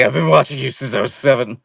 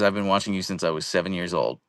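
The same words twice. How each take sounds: First: Higher, louder mock creepy-fan voice. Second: Said in the usual way. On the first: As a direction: play the unsettling lifelong fan for laughs. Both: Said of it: "You're like".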